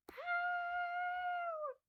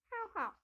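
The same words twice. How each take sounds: First: Very high yappy puppy bark; squeaky little bark; dog bark. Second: Higher double yap; puppy barks. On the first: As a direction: yap like a tiny toy dog. Dog character barks. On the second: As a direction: bark twice like a small puppy. Dog keeps barking. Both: Pretend.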